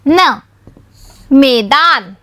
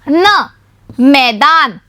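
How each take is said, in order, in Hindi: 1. पहला स्वर सामान्य 'e' की आवाज़ है। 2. पहला स्वर 'ai' की आवाज़ है। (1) "म में ए की मात्रा में" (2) "म में ऐ की मात्रा मई"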